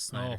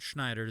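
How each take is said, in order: First: The name starts with a plain 's' sound. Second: The name starts with an 'sh' sound. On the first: The speaker calls it right. "It's Snyder" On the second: The speaker calls it wrong. "not Schneider. There's no C H"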